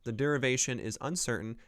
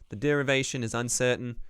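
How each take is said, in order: First: It is said in the speaker's plain accent. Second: It is said in an imitated Boston accent.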